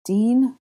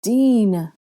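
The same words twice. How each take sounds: First: Higher, uncertain rising call; tentative, lifting appeal; questioning call. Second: Louder, higher plea that falls away; drawn-out, falling appeal; pleading. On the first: Captive calls to her friend. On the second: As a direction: plead with a friend for help. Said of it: "Hermione pleaded". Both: Acted.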